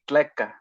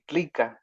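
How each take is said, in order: First: The vowel after tl is a plain e. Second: The vowel after tl is an i. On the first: This is how the speaker's own variant says it. "for us, it would be tleca" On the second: This is how people from the hometown say it. "they would say tlica"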